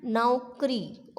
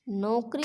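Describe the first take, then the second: First: नौकरी said slowly with "nau", falling; au sound in नौकरी. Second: नौकरी said as "nokri", plain o; mispronounced नौकरी. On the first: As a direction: open the first vowel of नौकरी into a drawn-out "au". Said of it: "आओ की मात्रा आएगी". (नौकरी में धीमा, साफ़ औ) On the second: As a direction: say नौकरी wrongly with "no" for "nau". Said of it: "नौकरी नहीं होगी". (नौकरी को नोकरी, ओ की मात्रा) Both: Shown as a demonstration.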